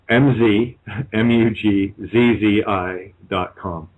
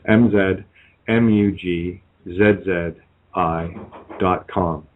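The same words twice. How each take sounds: First: The letters are spelled in an American accent. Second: The letters are spelled in a non-American accent.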